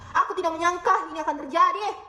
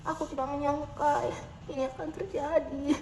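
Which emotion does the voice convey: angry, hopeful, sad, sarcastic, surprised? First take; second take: angry; sad. First: The voice sounds angry and sharp. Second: The voice sounds sad and downcast. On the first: "dengan nada marah" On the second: "dengan nada sedih"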